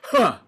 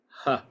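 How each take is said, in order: First: It is a hard, sharp, punched burst. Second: It is a clean, easy, voiced touch.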